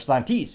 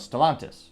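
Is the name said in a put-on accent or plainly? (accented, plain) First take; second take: accented; plain. First: The name is said in a playful foreign accent. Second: The name is said in a plain English accent.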